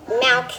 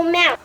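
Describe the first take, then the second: First: "Milk." with a crisp short i and a clear L; careful, correct "Milk.". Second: "milk" said like "mowk", no clear L; "milk" with a dark vowel, like "mowk". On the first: Shown as a demonstration. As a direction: say "Milk." cleanly, the i as in "milkshake". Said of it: "now say milk". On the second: Real, not acted. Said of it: "Now you're saying wrong".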